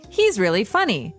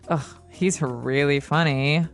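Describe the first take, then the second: First: It is said sincerely, meaning he is funny. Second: It is said sarcastically, meaning he is not funny.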